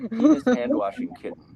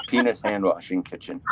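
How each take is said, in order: First: "kitten" said right, higher and laughing; corrected to kitten. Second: "kitchen" said by mistake for "kitten"; misread as kitchen. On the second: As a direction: misread the last word as "kitchen". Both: Real, not acted. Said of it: "Kit-, kitten".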